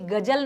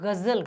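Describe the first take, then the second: First: The middle consonant is a j sound. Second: The middle consonant is a z sound. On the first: The speaker calls it wrong. "अब इसको भी गजल नहीं कहते" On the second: The speaker calls it right. "इसको गजल कहते हैं"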